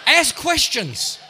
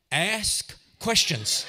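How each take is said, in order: First: High, loud and slow; loud emphatic advice. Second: Deliberate pause between the two words; slow, spaced advice. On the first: Comic preacher drives advice home, loud and drawn out. Punchline advice repeated louder. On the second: Comic preacher advises the audience, slow and spaced. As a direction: draw out each word slowly. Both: Real, not acted.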